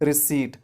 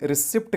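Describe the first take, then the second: First: No p sound is heard before the final t. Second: A p sound is heard before the final t. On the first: The speaker calls it right. "पी silent होता है" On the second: The speaker calls it wrong. "रिसिप्ट कहते हैं तो बिल्कुल गलत कहते हैं"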